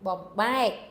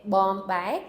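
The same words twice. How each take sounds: First: Corrected "bom, bai", accent landing on "bai"; stress on second syllable. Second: "bom, bai" without a lift on "bai"; unaccented second syllable. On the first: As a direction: hit "bai" harder than "bom". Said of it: "second syllable is the one that's accented". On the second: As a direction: give "bom" and "bai" equal stress. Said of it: "It should have been". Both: Shown as a demonstration.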